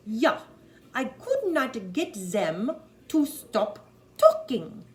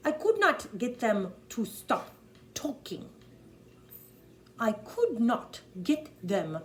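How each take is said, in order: First: "them" said as "zem", loud and slow; loud, slow German accent, "them" as "zem". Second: Louder, slow German accent, "them" with a plain T H; slow, emphatic German accent. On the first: Coach's corrected take, "them" said as "zem" in a German accent. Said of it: "They say a Z or an S". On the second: Coach's first take of the line, "them" said with a plain T H. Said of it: "they don't have a T H". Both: Shown as a demonstration.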